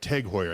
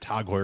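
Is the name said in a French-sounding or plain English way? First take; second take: plain English; French-sounding. First: The name is said plainly, with a harsh ending. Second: The name is said softly, in a French-sounding way. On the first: This is the name's proper pronunciation. The speaker calls it right. "I guess it is" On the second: It was said this way to sound fancy. The speaker calls it wrong. "for years I said Tag Heuer because it sounded fancy"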